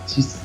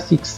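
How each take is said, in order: First: The word ends in a plain s sound. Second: The word ends in a ks sound. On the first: The speaker calls it right. "هنا قلت سيس" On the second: The speaker calls it wrong. "ما قلتش هنا سيكس"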